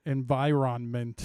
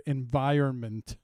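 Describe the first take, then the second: First: "Environment" slowly sounded out, en-vi-RON-ment; spelling pronunciation. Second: Said in the usual way. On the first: Shown as a demonstration. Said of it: "how I used to remember how to spell that word". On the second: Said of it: "how I used to remember".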